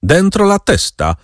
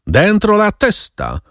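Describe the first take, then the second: First: High, barked order; a rider ordering the baron back inside; commanding yell. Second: High, slow menacing order; a sinister rider repeating his order to the captive; ominous voice. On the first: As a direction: snap the order Dentro la testa!, mock yelled. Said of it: "wrzasnął ktoś rozkazująco". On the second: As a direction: lay on the threat, drawing out Dentro la testa. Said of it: "ten sam złowróżbny głos". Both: A narrator's reading.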